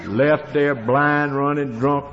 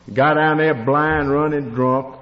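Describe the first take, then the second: First: Slow telling. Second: Louder repeat. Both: Real, not acted.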